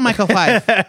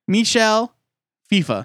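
First: The surname has one syllable, rhyming with 'life'. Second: The surname has two syllables, ending in 'fa'. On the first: The speaker calls it wrong. "It's not Michael Fife" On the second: The speaker calls it right. "What was that name you just said?"

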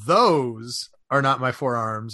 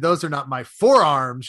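First: The stress is on "those". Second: The stress is on "forearms".

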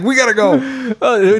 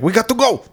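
First: It is said with a put-on foreign accent. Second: It is said in a plain, normal voice. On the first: "he has an accent all of a sudden" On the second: "And he doesn't say it like that"

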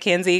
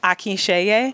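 First: The surname is said in a simplified, easier form. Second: The surname is said in its original Nigerian form. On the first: This is how most people outside that community say it. "I say Akinzie because it's easier for me and everybody else to say" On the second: This is how the family's home community says it. "It's actually pronounced Akinseye"

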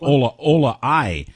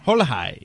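First: Both words begin without an h sound. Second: Both words begin with an h sound.

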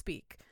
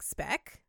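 First: The vowel is long, as in 'see'. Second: The vowel is short, as in 'bed'. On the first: The speaker calls it right. "luckily, it's pronounced Speak" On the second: The speaker calls it wrong. "I feel really dirty saying it like that"

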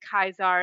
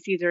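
First: The name begins with a hard K sound. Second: The name begins with a soft S sound. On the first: This is the original Latin pronunciation. "we don't say Caesar" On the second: This is the usual English pronunciation. "We say Caesar"

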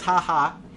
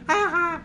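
First: It is read in a normal voice. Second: It is said in a mocking Simpsons voice.

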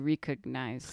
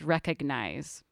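First: The first syllable sounds like 'ree'. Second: The first syllable sounds like 'rek'. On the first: "which it could be recognize, so it fits better" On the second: "this one's the first one that doesn't sound like re"

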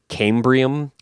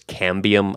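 First: An 'r' sound follows the 'b'. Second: No 'r' sound follows the 'b'. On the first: The speaker calls it wrong. "I kept calling it cambium ... my brain kept saying cambrium" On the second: The speaker calls it right. "the actual word is cambium"

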